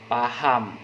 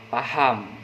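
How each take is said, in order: The two takes are said the same way.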